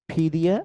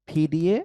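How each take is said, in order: No difference in how they are said.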